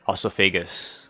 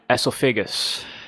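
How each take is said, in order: First: The word starts with an 'oh' vowel sound. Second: The word starts with an 'eh' vowel sound.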